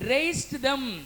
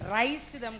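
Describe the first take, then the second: First: The first word ends in a z sound, like raise. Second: The first word ends in an s sound, like rice. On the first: The speaker calls it right. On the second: The speaker calls it wrong.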